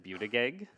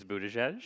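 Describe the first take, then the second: First: Buttigieg said as "byoo-tih-gig", rising; hard G sounds in Buttigieg, "byoo-tih-gig"; mispronounced surname. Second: Buttigieg said as "boo-tuh-jej"; proper Maltese pronunciation. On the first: Panelist quotes wife's mistake, Buttigieg said as "byoo-tih-gig". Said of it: "Mispronounced it". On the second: Panelist names wife's Maltese friend, Buttigieg with soft J sounds. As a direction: soften both G sounds in Buttigieg. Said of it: "corrected about proper Maltese pronunciation". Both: Shown as a demonstration.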